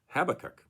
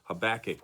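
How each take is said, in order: First: The stress is on the first syllable. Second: The stress is on the second syllable. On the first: "with the emphasis on the first syllable" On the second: "with the accent on the second syllable"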